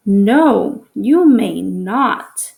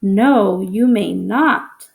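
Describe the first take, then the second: First: Said in the usual way. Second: A firm, slow refusal: "No, you may not"; strong emotion. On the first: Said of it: "read it with strong emotion". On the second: Shown as a demonstration. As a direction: hit "No" hard and stretch out "you may not". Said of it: "I need to read it with strong emotion".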